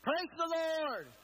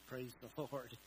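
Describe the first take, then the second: First: It is said strongly, like an exclamation. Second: It is said weakly, with little energy.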